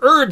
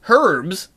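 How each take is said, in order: First: It is said the American way, h silent. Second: It is said with a non-American accent, h sounded.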